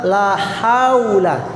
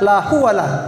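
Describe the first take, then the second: First: The word is said as haula, ha before u. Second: The vowels are swapped, sounding like huwala. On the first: The speaker calls it right. "Yang benar la haula" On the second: The speaker calls it wrong. "Ada biasa orang bilang la huwala"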